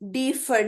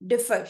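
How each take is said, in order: First: The first vowel is long. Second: The first vowel is short. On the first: The speaker calls it wrong. "डीफर नहीं बोल रहे" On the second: The speaker calls it right. "वाउस जो है उसको short रखेंगे before double consonant"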